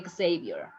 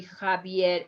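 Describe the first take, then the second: First: Xavier as "ek-SAY-vyer"; wrong pronunciation. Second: Javier as "kha-VYEHR"; "Javier" starting on Spanish J; correct Spanish pronunciation. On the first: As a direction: say "Xavier" the English way, with KS. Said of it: "is not Xavier". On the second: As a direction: say "Javier" with a throat H. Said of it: "is going to be Javier". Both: Shown as a demonstration.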